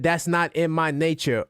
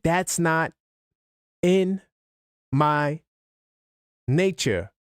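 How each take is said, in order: First: The words run together without pauses. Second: There is a pause between each word. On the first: "I didn't do the pauses" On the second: "The pauses between each word reflected his deliberateness"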